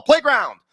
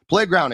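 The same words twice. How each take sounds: First: Ad punch. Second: Said in the usual way. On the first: Acted. Ad read sponsor name.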